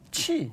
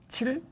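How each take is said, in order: First: The word ends in a vowel, no final l. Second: The word ends with a final l sound.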